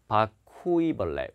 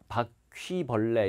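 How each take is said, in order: First: 바퀴벌레 with 퀴 broken into "ku-i"; split u-i. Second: 바퀴벌레 with 퀴 as one gliding syllable; Korean pronunciation. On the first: Retold or imitated. Teacher imitating native English speakers, 바퀴벌레 split as ku-i. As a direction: say 바퀴벌레 as "ba-ku-i-beolle". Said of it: "우이로 끊어서 읽어요". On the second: Shown as a demonstration. Teacher showing what natives can't say, 바퀴벌레 with single-syllable 퀴. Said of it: "이렇게 발음 못해요".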